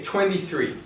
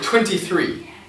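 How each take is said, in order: First: The T in twenty is left out. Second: The T in twenty is clearly pronounced. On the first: "I kind of leave it out" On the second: "I don't say twenty-three"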